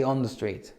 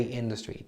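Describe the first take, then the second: First: "on" leaned on a little; a light stress on "on" as Americans say it; American usage. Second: "in" leaned on a little, said softly; a light stress on "in", the British way; British usage. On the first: Teacher to students: a light stress on "on". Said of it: "In America, they say". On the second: Teacher to students: a soft stress on "in". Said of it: "But in England, we say". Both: Shown as a demonstration.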